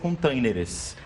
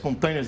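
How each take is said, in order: First: It is said the Portuguese way, ending in -eres. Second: It is said the English way, ending in -ers. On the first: The speaker calls it right. "No português é containers" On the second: The speaker calls it wrong. "containers do inglês, erra"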